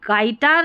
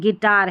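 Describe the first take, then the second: First: The first syllable sounds like 'guy'. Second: The first syllable sounds like 'gih'. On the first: The speaker calls it wrong. "ये गाइटार नहीं है" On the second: The speaker calls it right. "गिटार है"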